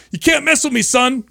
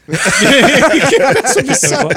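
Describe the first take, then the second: First: High, smug taunt; cocky comeback. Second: Repeated through a loud laugh. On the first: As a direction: sass the teacher with a grin. Retelling his cocky comeback to teacher. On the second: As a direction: chuckle out the comeback again. Repeating the comeback while laughing. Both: Retold or imitated.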